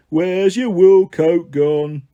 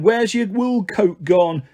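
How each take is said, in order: First: Chanted, very slow, stretched playground taunt; chanted, drag out every word like a mocking chorus; jeering chant. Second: Slow playground chant; chanted, draw out "where's your wool coat gone" teasingly. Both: A narrator's reading. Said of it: "cheering and whooping and going".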